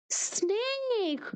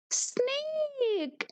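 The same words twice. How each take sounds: First: Said in the usual way. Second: Snake said higher, like a lively teacher. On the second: Shown as a demonstration. Teacher repeating Snake to children, said higher. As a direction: lift the word Snake high.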